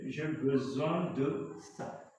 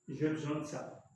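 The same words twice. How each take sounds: First: The vowel of 'de' is fully pronounced. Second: The vowel of 'de' is dropped. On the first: "Au lieu de" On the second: "C'est pourquoi j'ai dit j'ai besoin de ça"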